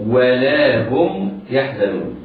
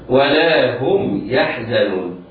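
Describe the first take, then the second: No difference in how they are said.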